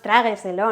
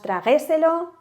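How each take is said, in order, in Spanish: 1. La sílaba tónica cae en la primera. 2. La sílaba tónica cae en una posterior. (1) "el golpe de voz lo tenemos en tra" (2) "las otras suenan un poco extrañas"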